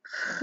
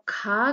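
First: ख said as a throaty fricative x, like Urdu khe; ख scraped at the back of the throat; ख as the Urdu fricative x, not aspirated kh; nukta kha. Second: खा said with a breathy aspirated k, as in plain Hindi kha; खा with a puff of air after the k; खा as aspirated kh, not the throaty sound. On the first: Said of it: "दूसरी तरफ ख की आवाज है". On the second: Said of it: "एक तरफ खा की आवाज है". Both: Shown as a demonstration.

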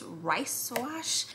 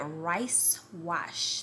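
First: Stumbling on "rice wash", words sliding together, rising at the end; tongue-tied attempt. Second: "Rice wash" as two separate words, falling at the end; careful retry. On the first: Vlogger reading out a product name, tongue-tied on "rice wash". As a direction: trip over "rice wash" with an unsure lift. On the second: Vlogger correcting her tongue twister, careful "Rice wash". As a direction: say "Rice wash" carefully, each word apart, ending down. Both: Real, not acted. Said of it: "why can't I say that".

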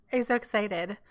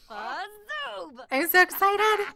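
First: Said in the usual way. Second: High, slow, squealing excitement; drawn-out high excited gush. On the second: Real, not acted. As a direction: stretch it out in a high thrilled squeal.

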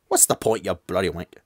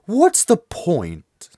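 First: Bad British accent. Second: Slow, higher attempt at British; a drawn-out, badly faked British accent. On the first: Second try at the transfer student, bad British accent. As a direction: toss off a badly faked British accent. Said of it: "I can't even do a British accent anymore". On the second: Streamer voicing the transfer student, bad British accent. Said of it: "I have to go with a bad British accent".

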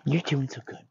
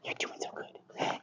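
First: Lightly voiced princess praise; a hint of princess sweet-talk to a dog. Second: Slow, whispered praise to a dog; whispered princess voice. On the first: Trainer praising a dog, light princess voice. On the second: Trainer rewarding a dog, whispered princess voice. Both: Shown as a demonstration. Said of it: "these extra princess voices that I'm doing".

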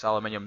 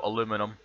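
First: "aluminium" said with five syllables, al-yoo-MIN-ee-um; Scottish aluminium. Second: "aluminum" with four syllables, a-LOO-mi-num, the American way. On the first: Correcting the American word, Scottish aluminium. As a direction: insist on "aluminium" with the extra syllable. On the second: Contrasting the American spelling, American aluminum. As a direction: say "aluminum" to show the American word. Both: Shown as a demonstration. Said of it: "no aluminum".

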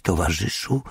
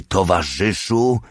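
First: Hesitant attempt. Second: Fuller-voiced, insistent word; exasperated prompting. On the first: Old prisoner tries saying comrade, hesitant. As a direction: try out an unfamiliar word. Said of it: "Minęła chwila, zanim pojawiły się słowa". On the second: Old man demands to be called comrade, exasperated. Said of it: "Stary rozpaczliwie potrząsnął głową". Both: A narrator's reading.

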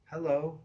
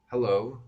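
First: High-pitched, unwelcoming female hello; unfriendly woman. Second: Put-on teen faking a grown-up hello; firm, loud phone hello, posing as older; put-on deep voice. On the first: Acted. Woman answers a late-night phone call, none too friendly. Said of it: "none too friendly either". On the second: Teen phones a woman late at night, faking a deep voice. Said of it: "I made my voice quite deep".

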